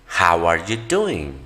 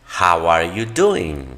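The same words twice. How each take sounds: The two takes are said the same way.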